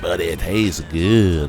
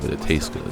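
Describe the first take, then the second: First: It is said with exaggerated, overblown energy. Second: It is said plainly, like ordinary conversation. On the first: "like the way she does with all the extra" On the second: "if I was Carmen in real life, I might just be like"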